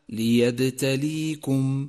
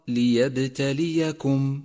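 First: No vowel follows the second 'y' sound. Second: A short 'a' follows the second 'y' sound. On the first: The speaker calls it wrong. "والخطأ الشائع" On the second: The speaker calls it right. "فانتبه إلى فتحة الياء الثانية وإياك من تسكينها، فالصواب"

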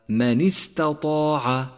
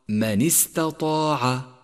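The two takes are said the same way.

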